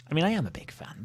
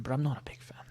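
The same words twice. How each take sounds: First: Said in the usual way. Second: Soft unvoiced whisper, half to yourself; sneaky whispered admission; whispered aside. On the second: Real, not acted. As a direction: confide it under your breath. Whispered contradiction after praise.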